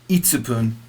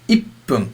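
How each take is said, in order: First: A full 'tsu' syllable is said in the middle. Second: A short silent hold comes before the 'pu'. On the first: The speaker calls it wrong. "not itsupun. Never itsupun" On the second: The speaker calls it right. "you must take time up"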